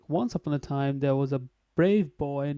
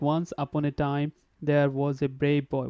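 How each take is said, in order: First: The words are linked smoothly together. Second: Each word is said separately, without linking. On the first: The speaker calls it right. "there should be a link link in between" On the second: The speaker calls it wrong. "there was no linking because you said like"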